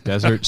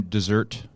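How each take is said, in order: First: Said in the usual way. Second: Desert said like "dessert", stress on the end; joke mispronunciation. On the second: Pretend. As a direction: playfully misread Desert as "dessert". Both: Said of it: "just kidding, Desert Stranger".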